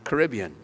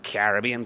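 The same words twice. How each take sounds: First: It is said the usual American way. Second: It is said the speaker's home-region way. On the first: This is the name as used in the United States. "here in the United States, apparently I'm Caribbean" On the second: This is the name as used where the speaker grew up. "I grew up thinking that I'm a Caribbean person"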